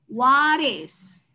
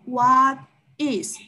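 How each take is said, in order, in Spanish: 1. Las dos palabras se dicen juntas, sin pausa. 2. Las dos palabras se dicen una por una. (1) "Si tú ves que hay una consonante y luego viene una vocal, podemos juntarlos" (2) "Evitamos decirlos uno por uno"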